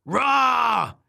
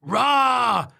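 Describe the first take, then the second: First: High, loud "rah"; long high-pitched storybook yell; shouted roar. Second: Loud, high copycat roar; long mimicking creature yell; shouted roar. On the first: Acted. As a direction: let out a frustrated roar. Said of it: "she shouted". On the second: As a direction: roar it straight back. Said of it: "shouted the wobbler".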